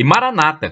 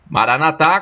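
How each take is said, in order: First: The stress falls before the last syllable. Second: The stress falls on the last syllable. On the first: This is how Protestants say it. "como dizem os protestantes" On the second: This is how Catholics say it. "com a tônica na última sílaba, como dizem os católicos"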